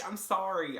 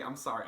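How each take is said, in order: First: Higher, sing-song "sorry"; fake-sweet "I'm sorry"; teasing insincere apology; mock apology. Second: Said in the usual way. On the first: Mock apology for being mean.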